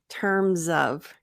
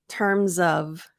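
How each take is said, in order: No difference in how they are said.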